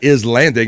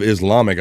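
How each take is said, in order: First: Islamic garbled with an N, like "Islandic"; mock mispronunciation. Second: Said in the usual way. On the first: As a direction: mangle Islamic into "is-LAN-dic". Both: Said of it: "instead of Islamic, I think".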